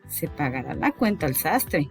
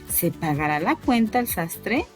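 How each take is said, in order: First: It is said as a statement, falling. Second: It is said as a question, rising.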